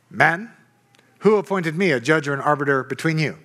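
The voice sounds stern and harsh. Jesus is angrily rebuking the man. The speaker calls it wrong. "I don't think he was like this"

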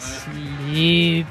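The word is said in a loaded, suggestive tone. It hints at sex. "you just put that tone in your voice and it just gets filthy"

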